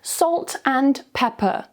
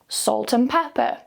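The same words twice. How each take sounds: First: Said slowly, and is full with a clear d. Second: Said quickly, and shrinks to a weak un. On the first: "slowly with the strong form" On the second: "quickly with the weak form"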